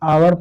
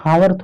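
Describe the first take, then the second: First: The word begins with a vowel sound. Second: The word begins with an h sound. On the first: The speaker calls it right. "इसको हम आवर पढ़ते हैं" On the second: The speaker calls it wrong. "इसको हम हावर थोड़ा पढ़ते हैं"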